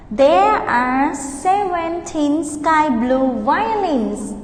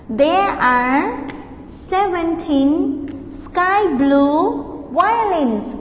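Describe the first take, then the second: First: Slow, clear model sentence; slow model answer. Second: Split, slow repeat; slow model answer. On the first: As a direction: pace it for repeating. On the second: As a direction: pause after there are, then slow. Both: Shown as a demonstration. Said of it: "practice repeating after me".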